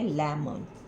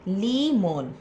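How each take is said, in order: First: The first vowel is short, as in 'leh'. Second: The first vowel is long, as in 'lee'. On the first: The speaker calls it right. "ये open syllable word नहीं है, उसको यहाँ पे ही break करना है" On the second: The speaker calls it wrong. "अगर वो लेमन में एल ई से ब्रेक करते हैं तो इसकी साउंड हो जाएगी ली मोन"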